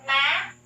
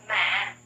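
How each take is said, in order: First: MÃ rising steeply to a high end, loudly. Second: MÃ dropped low and heavy; low falling tone. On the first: Teacher drills the fifth tone, MÃ high and rising. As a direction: push MÃ upward to the top. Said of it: "high raising tone". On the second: Teacher drills the sixth tone, MÃ low and falling. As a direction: press MÃ down to the bottom of the voice. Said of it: "low falling tone". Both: Shown as a demonstration.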